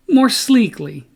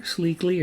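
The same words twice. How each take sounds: First: More sleekly said high and loud, punched on more; more sleekly stressed, sure of the word; confident emphasis. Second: Sleekly said softer, as a doubtful question; sleekly tried out softly, word in doubt; unsure try. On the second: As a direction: test sleekly quietly, unsure if it is right. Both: Real, not acted. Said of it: "Is that the right word?".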